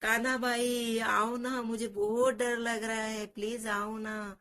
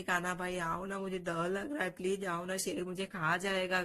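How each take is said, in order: First: Crying call for help. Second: Mock tearful pleading. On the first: Acted. Frightened child calling for Kanha to come, drawn-out and pleading. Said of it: "जोर से आवाज देता है". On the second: Scared child keeps begging his brother, mildly tearful. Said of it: "रोते रोते जोर जोर से आवाज".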